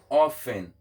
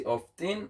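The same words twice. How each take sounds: First: OFTEN as "off-en", no T; OFTEN with silent T. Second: OFTEN as "off-ten", T sounded. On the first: Teacher shows how people pronounce it, OFTEN as "off-en". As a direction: drop the T from OFTEN. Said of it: "moun pwononse kòm often". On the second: Teacher shows what people sometimes say, OFTEN as "off-ten". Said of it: "Pafwa moun yo kan di often". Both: Shown as a demonstration.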